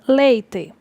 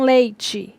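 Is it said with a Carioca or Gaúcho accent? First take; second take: Gaúcho; Carioca. First: It is said in a Gaúcho accent. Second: It is said in a Carioca accent.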